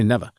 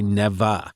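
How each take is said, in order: First: The word is clipped short and fast. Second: The word is drawn out and elongated. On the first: The speaker calls it right. "They say never. ... it comes out fast" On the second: The speaker calls it wrong. "People don't say"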